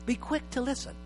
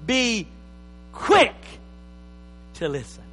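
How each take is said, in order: First: "Be quick to listen" said softly, almost hushed; soft repeat. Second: Preacher thunders "quick" to the church, then drops to a near hush on "listen"; punched quote. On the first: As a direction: pastor repeats the verse quietly for it to sink in. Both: Shown as a demonstration. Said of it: "So James said".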